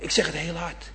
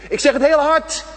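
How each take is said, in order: First: Said in the usual way. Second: Loud and high, as if to someone hard of hearing. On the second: Shown as a demonstration. Preacher calling loudly to elderly churchgoers hard of hearing. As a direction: call it out so deaf ears catch it.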